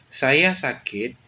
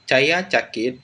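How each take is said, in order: First: The s sounds are said as plain s. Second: The s sounds are said as ch. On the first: "yang pada awalnya berbunyi S" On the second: "dilafalkan sebagai bunyi C"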